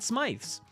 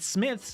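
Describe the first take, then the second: First: The name rhymes with 'scythe'. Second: The name rhymes with 'myth'. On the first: The speaker calls it wrong. "not Smythe's. Um, as us Americans may think" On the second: The speaker calls it right. "that is how you say it"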